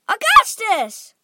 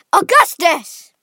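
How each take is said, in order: First: Loud, higher-pitched drawn-out call; mother's high cry for her son. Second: Loud, high, drawn-out call; father shouting his son's name; father crying out. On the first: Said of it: "cried Missus Gloop". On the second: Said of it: "cried Mister Gloop". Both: A narrator's reading.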